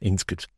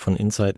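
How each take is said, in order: First: The name is pronounced like 'inskit'. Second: The name is pronounced like 'insight'. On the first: The speaker calls it wrong. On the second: The speaker calls it right.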